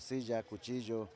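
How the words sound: The double L sounds like a J.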